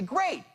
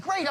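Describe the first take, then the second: First: It sounds warm and genuinely pleased. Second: It sounds flat and insincere. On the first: The speaker is truly happy to hear it. The speaker calls it right. "Great means I'm genuinely happy to hear that" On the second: The speaker does not really care. The speaker calls it wrong. "You'd say, what a disingenuous asshole that is"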